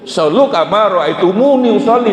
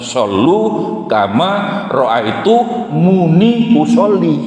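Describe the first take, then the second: First: It is read at a normal pace, run together. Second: It is read slowly, with pauses between words. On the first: Pray as you saw me pray. "yang dijadikan dasar tidak boleh usolli itu kan itu" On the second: The hadith commands praying with usolli. "Dengarkan pelan-pelan"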